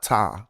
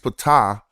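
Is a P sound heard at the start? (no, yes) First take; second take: no; yes. First: The name starts without a P sound. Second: The name starts with a P sound. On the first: The speaker calls it wrong. "and not Ta" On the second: The speaker calls it right. "I think he's Ptah"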